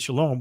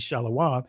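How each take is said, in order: First: The word is said with two syllables. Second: Each consonant is followed by an ah vowel. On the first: This is the common modern pronunciation. "people would say shalom" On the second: This is a reconstructed ancient pronunciation. "this would be shalawam"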